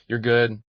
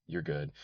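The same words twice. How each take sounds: First: "good" hit higher and louder; emphatic repeat. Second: Said in the usual way. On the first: A narrator's reading. Spade needling Brigid, emphatic. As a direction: punch "good" the second time.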